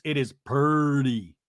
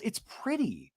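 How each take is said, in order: First: "purdy" drawn out slowly as PUR-dee; imitating a man saying "purdy" for pretty; purdy pronunciation. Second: "pretty" said high and soft as PRIT-ee; imitating a wife correcting with a clear "pretty"; standard pronunciation. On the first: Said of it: "How do you say pretty?". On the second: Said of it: "And Tamra goes".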